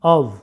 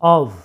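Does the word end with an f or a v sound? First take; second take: v; v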